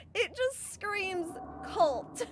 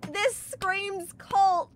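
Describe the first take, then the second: First: Just; stress on just. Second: Cult; stress on cult. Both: Real, not acted.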